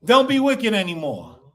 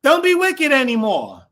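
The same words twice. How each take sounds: First: Said in the usual way. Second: Louder, higher scolding tone; preachy warning voice; scolding, raised voice. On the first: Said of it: "Does that sound like your teachers now?". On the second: Shown as a demonstration. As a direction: scold them like a stern teacher. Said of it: "How does it sound?".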